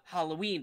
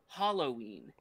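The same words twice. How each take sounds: First: The stress is not on the first syllable. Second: The stress is on the first syllable. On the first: The speaker calls it right. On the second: The speaker calls it wrong.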